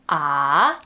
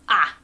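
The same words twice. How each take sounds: First: The pitch dips down and then rises. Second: The pitch falls sharply from high to low. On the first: "The third one goes down and then up" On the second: "the fourth one just goes straight down"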